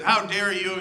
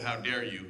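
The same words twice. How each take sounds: First: Louder, indignant "How dare you?"; mock outrage. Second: Said in the usual way. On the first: Obama scolding BP after the oil spill, louder mock outrage. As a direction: play the president's public scolding. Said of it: "Barack Obama got out there and he said".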